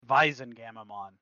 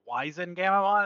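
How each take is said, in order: First: The name begins with a V sound. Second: The name begins with a W sound. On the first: The speaker calls it right. "no, it's German too. That'd be Weizen" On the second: The speaker calls it wrong. "when I first started saying it"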